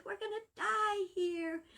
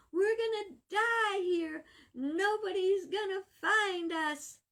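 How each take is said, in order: First: High, frantic cry of despair; panicking. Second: High, slow, crying wail; despairing wail. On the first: Stranded shipwreck survivor panics to his companion, high and frantic. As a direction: blurt it out in rising panic. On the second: Stranded survivor wails to his companion, high and tearful. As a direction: repeat it breaking into tears. Stranded man panics on island. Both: Acted.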